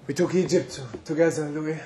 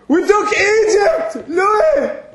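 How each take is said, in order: First: Quiet. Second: Shouting. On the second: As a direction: shout it out proudly. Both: Acted. Reminiscing with old friend Louis.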